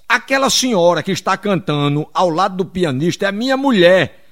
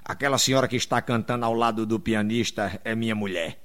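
First: Anfitrião projetando a voz, palavra por palavra; repetindo bem alto. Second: Voz grave e baixa, orgulho contido; anfitrião orgulhoso. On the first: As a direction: fale forte para quem não ouve. Repete mais alto para ser ouvido. (anfitrião repetindo em voz alta) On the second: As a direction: diga baixinho e grave, todo orgulhoso. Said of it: "aí todo orgulhoso". (todo orgulhoso, em voz grave e baixa) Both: Acted.

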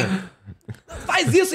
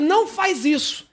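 First: Slow, strangled mock cry; voice won't come out. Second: Higher, drawn-out mock yell; retold intended yell. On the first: Frightened passenger trying to stop the driver, voice choked off. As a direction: imitate a yell stuck in the throat. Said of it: "a voz não sai". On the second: Passenger wants to stop the fleeing driver, mock yell. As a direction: stretch it like a plea to stop, without full volume. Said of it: "eu queria gritar pra ele".

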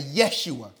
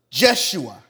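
First: Yeshua, opening like "yes"; Y pronunciation. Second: Jeshua, opening on a J sound; J pronunciation. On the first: Preacher gives the congregation the other form, Yeshua with a Y. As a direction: say Yeshua with a Y sound at the start. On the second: Preacher explains the Hebrew name to the congregation, Jeshua with a J. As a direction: say Jeshua with an English J at the start. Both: Shown as a demonstration. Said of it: "Or they say kinda Yeshua".

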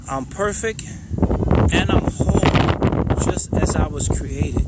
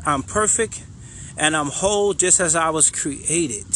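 First: Heartfelt affirmation. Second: Said in the usual way. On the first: Shown as a demonstration. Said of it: "make sure you feel it". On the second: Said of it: "the first thing we're gonna say is".

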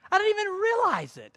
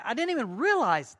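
First: Very high, loud mock Brazilian accent. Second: Said in the usual way. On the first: Preacher showing his adapted speech, high mock Brazilian accent. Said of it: "my pattern of speech had adapted to theirs". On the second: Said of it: "my pattern of speech had adapted".

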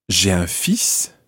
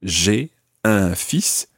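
First: Slightly slow, joined up; connected speech demo; run together. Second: Slowed, each word clear; deliberate teaching pace; slow demo. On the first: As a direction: glide "j'ai un fils" into two syllables. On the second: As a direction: spell it out slowly for learners. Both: Shown as a demonstration. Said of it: "almost sounds just like two syllables".

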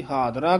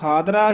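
First: ਹਾਦਰਾ with dh in place of d; mistaken dhadda sound. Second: ਹਾਦਰਾ with unaspirated d; plain d in ਹਾਦਰਾ. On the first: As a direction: mispronounce ਹਾਦਰਾ using the ਧ sound. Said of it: "ਧੱਦਾ ਲਾ ਦਿੰਦੇ ਹਨ". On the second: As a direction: say ਹਾਦਰਾ with a simple d sound. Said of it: "ਹਾਦਰਾ ਹੀ ਉਚਾਰਨ ਕਰਨਾ". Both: Shown as a demonstration.

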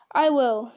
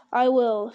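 First: Loud, mildly eager reply; volunteer with a touch of eagerness. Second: Loud but mildly heavy reply. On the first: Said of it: "said Gimli eagerly". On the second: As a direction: agree with a touch of heaviness. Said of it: "said Aragorn heavily". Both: A narrator's reading.

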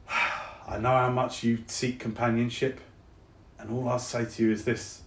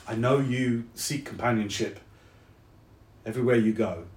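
First: Softly spoken South London; South London accent. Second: Said in the usual way. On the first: Acted. Soldier comforts departing friend, South London accent. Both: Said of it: "my accent has gone all South London".

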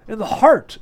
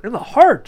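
First: High, loud burst of surprise; startled exclamation. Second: High, loud hollow echo of the exclamation; hollow-voiced repeat. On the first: Margarita reacting to the marksman's boast, exclaiming. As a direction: exclaim it, pitch jumping up. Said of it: "exclaimed Margarita". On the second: Margarita repeating the words, hand to heart, hollow-voiced. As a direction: repeat it higher and louder, as if hollowed out. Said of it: "repeated in a hollow voice". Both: A narrator's reading.

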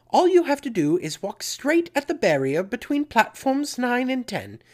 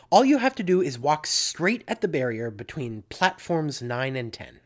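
First: Put-on high, loud amateur British accent; terrible British accent. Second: Said in the usual way. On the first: Preacher quoting Missus Weasley to listeners, in a bad British accent. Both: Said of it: "Pardon my terrible British accent".

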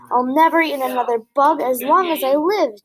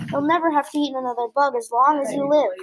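First: Cheerful. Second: Said in the usual way. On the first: A narrator's reading. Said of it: "cheered Stella Luna". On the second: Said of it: "said Mother Bat".

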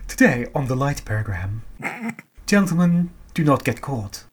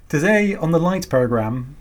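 First: Put-on old BBC announcer RP; clipped received pronunciation announcer; RP accent. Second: Slipping out of posh RP; everyday British voice, announcer words; modern british accent. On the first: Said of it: "I lost my R P accent there. I'm sorry". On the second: Shown as a demonstration. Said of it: "I lost my R P accent there".

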